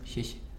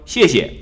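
First: It is said quietly and faintly. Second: It is said loudly and clearly.

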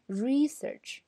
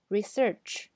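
First: The stress is on the first syllable. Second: The stress is on the second syllable. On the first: "名词呢，读research，那么re 这个时候要长一点" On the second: "重音在search 上"

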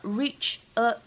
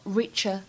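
First: The two words are said separately. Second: The two words run together as one.

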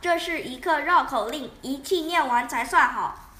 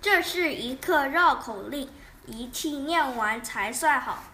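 First: It is said at a faster pace. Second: It is said at a normal pace.

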